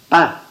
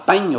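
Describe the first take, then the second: First: The word ends in a nasal vowel, no consonant. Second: The word ends with an audible nasal consonant.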